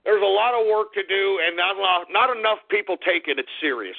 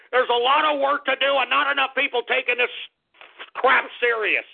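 First: Said in the usual way. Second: Higher, worked-up repeat; winding the rant back up; heated again. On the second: Pretend. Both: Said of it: "let me calm down".

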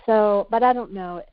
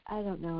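First: Said in the usual way. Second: Quiet trailing off. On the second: Real, not acted. Mother trailing off about her parenting, much softer. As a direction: repeat it much softer, almost to yourself. Repeats the phrase, fading out.

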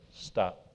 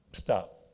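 First: Low, soft, calm stop; no raised voice, just quiet command. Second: Low, soft, calm stop; calm quiet stop. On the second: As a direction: say it softly without raising your voice. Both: Shown as a demonstration. Showing the church calm authority, soft low command. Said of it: "Don't raise their voice".

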